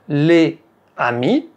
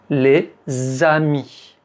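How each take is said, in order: First: The two words are said apart, without linking. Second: The final S links into the next word. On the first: The speaker calls it wrong. "On ne dit pas les amis" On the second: The speaker calls it right. "on fait la liaison et on dit les amis"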